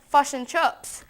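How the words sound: It is said with New Zealand vowels.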